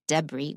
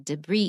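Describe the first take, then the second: First: The stress is on the first syllable. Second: The stress is on the second syllable. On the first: The speaker calls it wrong. "We don't say debris" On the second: The speaker calls it right. "we say debris in American"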